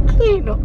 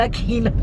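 First: Blunt refusal. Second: Said in the usual way. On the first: Retold or imitated. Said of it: "tú viste cómo me miró la muchacha". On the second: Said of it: "le digo yo".

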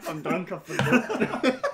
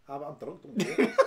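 First: Slow laughing parrot of his mate's words; teasing slowed-down repeat, laughing; mocking echo. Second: Giggling through the words, a squeal of laughter in the middle; laughing at his own slip; half-sheepish laughter. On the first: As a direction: mimic him back, slow and through laughter. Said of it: "I, I'm drunk, don't worry. I forgot". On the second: Real, not acted. Drunk admission, laughing.

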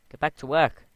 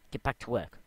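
First: Much louder and higher all-out yell; full yell. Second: Loud call, firm not yet yelling. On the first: Yelling at the lazy villager to get back to work. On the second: Calling out to the lazy villager, firmly raised voice. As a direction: tell him off with a raised voice. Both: Real, not acted.

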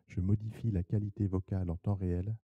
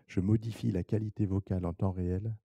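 The two takes are said the same way.

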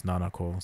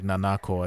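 First: "Nanako" as NA-na-ko; stress on first syllable. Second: "Nanako" as na-NA-ko; stress on middle syllable. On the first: Correcting the accent for this name, NA-na-ko stress. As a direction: hit the first syllable of "Nanako", let the rest drop. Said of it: "I think it's Nanako". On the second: Correcting the accent rule for this name, rejected na-NA-ko stress. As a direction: lean on the second "na" in "Nanako". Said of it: "it's not like Nanako". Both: Shown as a demonstration.

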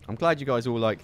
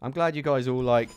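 The two takes are said the same way.

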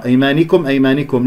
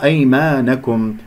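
First: أيمانكم as "aymanikum"; faulty "ni" in أيمانكم; mistaken kasra. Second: أيمانكم as "aymanakum"; correct fatha. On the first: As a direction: wrongly put an i after the nun in أيمانكم. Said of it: "خطأ". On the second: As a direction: put an open a after the nun in أيمانكم. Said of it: "لا، في الأخيرة أيمانكم". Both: Shown as a demonstration.

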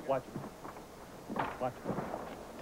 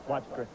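First: Urgent whisper, no voice; whispered warning. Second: Said in the usual way. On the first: Real, not acted. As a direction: whisper it so the suspect can't hear. Officer warning partner in attic.

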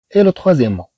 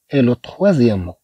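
First: Said in the usual way. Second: Et le troisième mot said slowly and softly; slow teacher repetition; slower careful repeat. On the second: Shown as a demonstration. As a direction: repeat it slowly so pupils catch it. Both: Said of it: "le premier mot".

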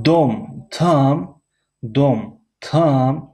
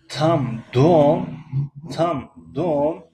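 First: Slow, higher question tune on دوم; stress on дом. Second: Slow rising tune on دوم; stress on дома. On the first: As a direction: ask it slowly, lifting دوم. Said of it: "یعنی موضوع صحبت". (تأکید آهسته و بلند روی دوم) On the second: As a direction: rise on دوم as a question. (آهنگ سوالی روی دوم) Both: Shown as a demonstration.

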